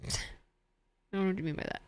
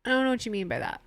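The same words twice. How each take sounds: First: Mock-innocent through a laugh, much softer. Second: Said in the usual way. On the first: Streamer dodging chat's hospital question, laughing softly. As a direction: play dumb while chuckling quietly.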